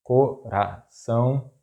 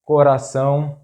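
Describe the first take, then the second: First: Coração slowly split, co - ra - ção; syllable by syllable. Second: Coração as one word, stressed on final ÇÃO; stress on accented syllable. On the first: Teacher breaking down an example word, coração slow in syllables. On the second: Teacher giving an example word, coração stressed on last syllable. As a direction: say coração joined up, landing on ÇÃO. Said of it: "the stressed syllable is that one". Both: Shown as a demonstration.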